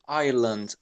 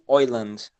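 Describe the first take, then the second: First: The first vowel sounds like 'eye'. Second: The first vowel sounds like 'oy'. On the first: "no inglês padrão, vamos dizer assim, a gente pronuncia tipo Ireland" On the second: "para eles se torna oi. Então eles falam tipo Oiland"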